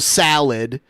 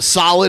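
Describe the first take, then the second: First: The first vowel is an open A sound. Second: The first vowel is a rounded O sound. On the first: "solid is now salad" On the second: "O sounds come out as A sounds"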